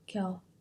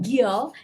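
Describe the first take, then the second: First: The first consonant is soft and light. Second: The first consonant has a strong puff of air. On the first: The speaker calls it right. "it's 겨. Lighter" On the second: The speaker calls it wrong. "It's not 겨"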